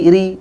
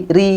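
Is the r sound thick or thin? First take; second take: thin; thin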